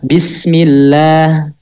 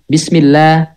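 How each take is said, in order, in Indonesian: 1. Kata itu diucapkan dengan tempo sedang. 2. Kata itu diucapkan dengan tempo cepat. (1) "biasa, normal gitu. Nggak lambat, nggak cepet" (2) "Jadi harokatnya bacanya cepet"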